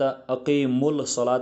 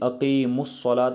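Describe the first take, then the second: First: The 'l' is pronounced before the 's'. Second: The 'l' merges into a doubled 's'. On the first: The speaker calls it wrong. "नहीं पढ़ेंगे" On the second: The speaker calls it right. "बल्कि अक़ीमुस्सलात"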